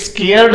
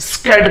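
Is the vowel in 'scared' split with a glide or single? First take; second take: glide; single. First: The vowel is split by a y-like glide. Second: The vowel is one smooth sound without glide. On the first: The speaker calls it wrong. "स्केयर्ड नहीं कहना" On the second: The speaker calls it right. "स्कैर्ड कहना"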